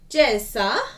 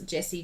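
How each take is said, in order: First: The name is said in an Italian accent. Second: The name is said in a plain accent.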